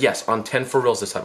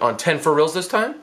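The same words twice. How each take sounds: First: "time" falling as a settled statement; reassuring answer. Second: "time" lifted in a rising question; wary question. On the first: Girlfriend promising the victim, falling on "time". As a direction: confirm it evenly, dropping down on "time". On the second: Victim checking with girlfriend, rising on "time". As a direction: ask it doubtfully, climbing up on "time". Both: Retold or imitated.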